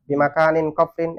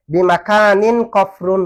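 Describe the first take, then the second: First: কফরিন said with the ending -in; case ending -in. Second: কফরুন said slowly with the ending -un; case ending -un. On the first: Teacher showing the expected grammatical form কফরিন to students. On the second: Teacher reading the verse form কফরুন slowly to students. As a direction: stretch বিমাকানিন কফরুন out, ending কফরুন on -un. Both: Shown as a demonstration. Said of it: "বিমাকানিন কফরিন হওয়ার কথা না".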